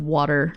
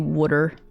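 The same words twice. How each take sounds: First: It is said in a standard accent. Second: It is said in a local regional accent. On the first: "instead of water" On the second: "people will say water"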